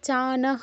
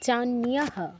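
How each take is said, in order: First: The n is followed directly by the vowel. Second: The n is followed by a y-glide. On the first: The speaker calls it wrong. "চানাহ নয়" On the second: The speaker calls it right. "নয়ের সাথে ইও আছে না"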